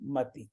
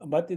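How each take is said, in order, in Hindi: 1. आखिरी 'इ' की मात्रा लंबी है। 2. आखिरी 'इ' की मात्रा छोटी है। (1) "पर वो गलत शब्द है। मती कोई शब्द नहीं है।" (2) "मति त पर छोटी की मात्रा है"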